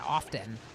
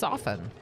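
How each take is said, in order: First: The T in the middle is pronounced. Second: The T in the middle is silent. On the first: The speaker is overcorrecting the word. The speaker calls it wrong. "some people are like overcorrecting and now they pronounce it often" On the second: This is the typical pronunciation. The speaker calls it right. "It's actually a silent T"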